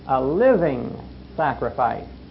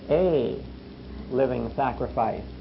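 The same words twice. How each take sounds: First: The stress is on the word living. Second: The stress is on the word a. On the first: The sacrifice must be alive and active. "But now there's another word behind it" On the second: Many bodies make one single sacrifice. "And yet there's a third word behind that"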